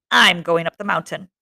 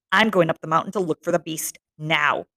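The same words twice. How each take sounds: First: Spat out like a curse; vicious, cursing tone. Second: Said in the usual way. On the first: Acted. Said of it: "The words came from Jack viciously, as though they were a curse".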